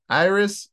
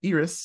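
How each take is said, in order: First: "Iris" said EYE-ris; Americanized "Iris". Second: "Iris" said EE-ris; corrected "Iris". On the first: Host misnames a film character, "Iris" as EYE-ris. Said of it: "I Americaned it". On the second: Host corrects the character's name, "Iris" as EE-ris. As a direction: start "Iris" with a long "ee" instead of "eye". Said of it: "not Iris, I Americaned it". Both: Real, not acted.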